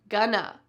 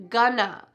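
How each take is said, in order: The two takes are said the same way.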